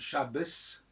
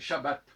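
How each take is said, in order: First: The word ends with a hissing s sound. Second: The word ends with a plain t sound. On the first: This is how it was said in an earlier era. "donc c'était un sifflant pour Shabbat" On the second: This is how it is said nowadays. "maintenant c'est Shabbat"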